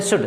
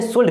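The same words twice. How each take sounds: First: शुड said as "shud", L silent; proper शुड, silent L; correct should. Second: शुड said as "shuld", with the silent L pronounced; wrong should, L sounded. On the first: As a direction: say शुड the right way, no L. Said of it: "जो जानते हैं उसे पढ़ते हैं शुड". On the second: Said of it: "बहुत सारे लोग पढ़ते हैं इसे शुड भी". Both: Shown as a demonstration.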